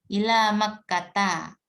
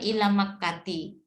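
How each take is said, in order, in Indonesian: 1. Kata terakhir diakhiri dengan vokal 'a'. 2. Kata terakhir diakhiri dengan vokal 'i'. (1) "Makanya ila makkata" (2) "Nah ini bukan ila makkati"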